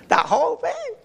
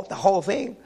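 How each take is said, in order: First: Much higher pitch, through a laugh. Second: Said in the usual way. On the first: Real, not acted. Husband confessing to the pizza binge, laughing. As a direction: repeat it with a rising, amused squeal.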